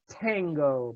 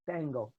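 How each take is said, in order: First: The first consonant is a hard T. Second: The first consonant is soft, close to D. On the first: The speaker calls it wrong. "not tango" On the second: The speaker calls it right. "The letter T is pronounced like D with voicing"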